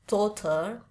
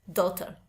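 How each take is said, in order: First: It is said with a British accent, longer vowel. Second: It is said with an American accent, shorter vowel.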